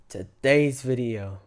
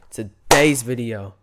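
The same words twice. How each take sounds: First: It is said with little force. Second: It is said with more force.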